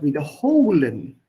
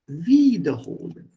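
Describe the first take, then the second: First: The stress is on the third syllable. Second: The stress is on the first syllable. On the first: It means to repeat. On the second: It means to fetch again. "Which means this is a separable verb"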